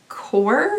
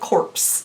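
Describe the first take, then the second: First: The word ends without any 'ps' sound. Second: The word ends with a clear 'ps' sound. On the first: The speaker calls it right. "I think it's actually supposed to be core" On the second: The speaker calls it wrong. "I really want to say corpse, like as in a corpse"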